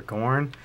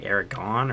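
First: "Aragorn" with the r sounded in "gorn"; name ending in -gorn. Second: "Aragorn" with the last syllable said "gon", no r; name ending in -gon. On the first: Player offering the other name, "Aragorn" with a full "gorn". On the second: Player guessing a spider's name, "Aragorn" said as "Aragon". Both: Shown as a demonstration. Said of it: "I'm pretty sure it's".

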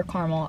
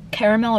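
First: Caramel as CAR-mul; caramel with the middle vowel dropped; two-syllable caramel. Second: Caramel as CARE-uh-mel; caramel with the middle "uh" sounded; three-syllable caramel. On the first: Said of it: "I literally say both". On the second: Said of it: "Do you say caramel or caramel?". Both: Shown as a demonstration.

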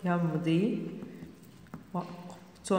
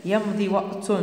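First: "يمض وقت" word by word, softly, with long gaps; slow dictation. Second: Said in the usual way. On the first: Shown as a demonstration. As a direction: dictate "يمض وقت" quietly, pausing inside "وقت".

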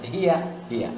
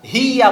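First: "হিয়া" with a short "হি", softer; correct short vowel. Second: "হিয়া" with a long, loud "হি"; wrongly stretched vowel. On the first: Teacher correcting learners, "হিয়া" with short "হি". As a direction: keep "হিয়া" short with no stretch. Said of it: "হিয়া না". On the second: Teacher mimicking a common error, "হিয়া" with stretched "হি". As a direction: draw out the "ee" in "হিয়া". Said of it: "হিয়া বলে অনেকে". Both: Shown as a demonstration.

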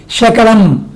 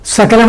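First: శకలం with a hushing sha instead of sa; twisted s sound. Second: Said in the usual way. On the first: Shown as a demonstration. Teacher shows how a twisted s changes the word, sha sound. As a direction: bend the s of సకలం into శకలం. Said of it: "మెలికిసా చెప్పామనుకోండి". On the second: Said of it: "సకలాన్ని కాస్త మెలికిసా చెప్పామనుకోండి".

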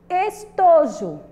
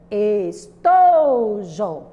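First: Said in the usual way. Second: "Estojo" chanted very slowly, "to" long and loud; sing-song stress on TO. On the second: Shown as a demonstration. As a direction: stretch out and punch the middle syllable of "Estojo".

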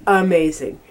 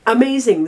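First: Said in the usual way. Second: Higher, punchier second amazing; excited repeat. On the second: Real, not acted. Raving to viewers about the rice crackers, excited. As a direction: repeat amazing with real delight. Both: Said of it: "I can't stop saying it".

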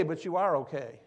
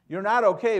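First: Said in the usual way. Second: NOT hit hard, higher and much louder; stress on not. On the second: Shown as a demonstration. Pastor to the hurting congregation, stressing not. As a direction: lean hard on the word not.

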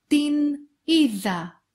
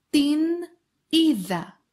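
The two takes are said the same way.

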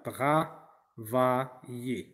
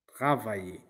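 First: «Travailler» étiré, syllabe par syllabe; très lent et articulé. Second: Said in the usual way. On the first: Shown as a demonstration. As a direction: fais entendre chaque son de «Travailler». (le professeur articule «Travailler» très lentement) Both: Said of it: "travailler, c'est un verbe de premier groupe".

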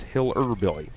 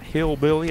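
First: Hiller Billy with an extra -er syllable, HILL-er BIL-ly; Hiller Billy nickname. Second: Hillbilly said the normal way, two syllables hill-billy; plain hillbilly. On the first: Telling viewers his nickname, the right funny way. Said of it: "now, it's not Hillbilly". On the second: Nickname explained to the viewer, the wrong plain way. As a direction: say Hillbilly as the usual word. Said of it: "it's Hiller Billy". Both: Shown as a demonstration.

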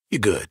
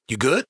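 First: "You good" pitched low, falling at the end; lower, settled "You good"; low statement. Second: "good" rising as a question; "You good" asked with rising end; questioning check-in. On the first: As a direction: let GOOD drop as a statement. Same words as a statement. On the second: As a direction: lift GOOD into a quick question. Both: Acted.

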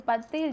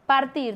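First: "partir" sung-style, with a softened R; "partir" bent to sound catchy; altered pronunciation. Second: Said in the usual way. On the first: Shown as a demonstration. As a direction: say "partir" loosely, like "paltil". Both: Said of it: "yo lo voy a decir así".

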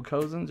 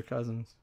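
First: "Cozens" said COH-zens; first vowel of "Cozens" as in "go"; long O in Cozens. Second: "Cousins" said CUZ-ins; first vowel of "Cousins" as in "cup"; short U in Cousins. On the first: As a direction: say "Cozens" with an OH sound. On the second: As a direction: say "Cousins" with an UH sound. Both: Shown as a demonstration. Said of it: "Cozens or Cousins?".

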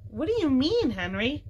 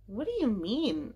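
First: High, astonished question; surprised cry. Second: Said in the usual way. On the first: A narrator's reading. Jessie questioning her brother about grandfather, a surprised cry. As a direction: demand to know, pitched high. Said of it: "cried Jessie". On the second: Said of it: "asked Violet".

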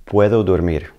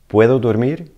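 First: Said in the usual way. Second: "Puedo dormir?" with the pitch rising to the end; rising question tune on "dormir"; question rise. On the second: Shown as a demonstration. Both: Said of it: "You're just changing your inflection".

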